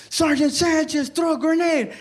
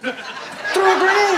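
First: High-pitched mock battlefield call. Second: Higher, slow, drawn-out mock yell; insistent call. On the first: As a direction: call the order across a firefight. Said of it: "somebody calling me". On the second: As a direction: stretch the repeated order out, pitched high. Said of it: "calling me to throw a grenade".

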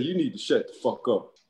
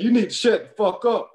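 First: Said in the usual way. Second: Higher and louder retold shout; retold yell. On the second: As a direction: bark it back at him. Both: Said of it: "He said".

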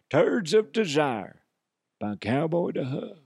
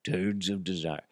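First: Commercial announcer. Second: Said in the usual way. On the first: Acted. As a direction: sell Turds of Desire like a perfume ad. Pitching a fake commercial.

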